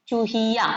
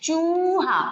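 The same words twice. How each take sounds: First: चूहिया with a quick, light, unstressed चू; teacher models the short u in चूहिया; short u said quickly. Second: चूहा with a long, stressed, higher चू; teacher models the long u in चूहा. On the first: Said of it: "छोटा ऊ की मात्रा बोलने में आपको जल्दी से बोलना होता है". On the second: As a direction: lean on the drawn-out ऊ of चूहा. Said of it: "मात्राओं पे जोर दे के बोलना होता है". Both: Shown as a demonstration.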